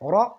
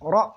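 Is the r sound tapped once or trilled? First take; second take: tapped; tapped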